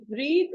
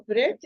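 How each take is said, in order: First: "breathe" with a long ee, as in "need"; long-vowel breathe. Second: "breath" with a short e, as in "bed"; short-vowel breath. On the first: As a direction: stretch the ee in "breathe", ending voiced. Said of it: "breathe is pronounced as breathe". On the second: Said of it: "breath is pronounced as breath". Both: Shown as a demonstration.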